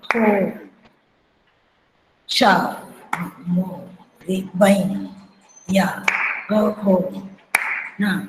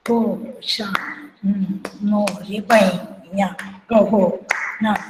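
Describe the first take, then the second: First: Syllables at half tempo, long gaps between; slow tempo. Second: Syllables in quick drut tempo; fast tempo. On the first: Teacher showing how the slow version went, very slow tempo. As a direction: stretch each syllable out and wait before the next. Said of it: "और जो slow गाते थे". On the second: Teacher showing how it was sung at speed, brisk tempo. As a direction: count the syllables out briskly, evenly spaced. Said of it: "speed में, द्रुत में". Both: Shown as a demonstration.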